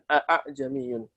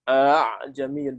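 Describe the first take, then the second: First: The second glottal stop is fully and clearly pronounced. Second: The second glottal stop is softened toward a vowel. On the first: The speaker calls it wrong. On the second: The speaker calls it right. "Dibaca antara hamzah dan mat"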